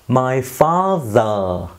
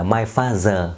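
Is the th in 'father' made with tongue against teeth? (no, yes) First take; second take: yes; no. First: The th is made with tongue against teeth. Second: The th is not made with tongue against teeth. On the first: The speaker calls it right. "chú ý âm TH, hai hàm răng chạm vào lưỡi nha" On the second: The speaker calls it wrong. "chứ không phải là my father ha"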